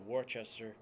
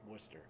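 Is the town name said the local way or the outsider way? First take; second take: outsider; local. First: The name is said the outsider way. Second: The name is said the local way. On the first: The speaker calls it wrong. "a lot of people say Worcester" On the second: The speaker calls it right. "Well, it's Worcester"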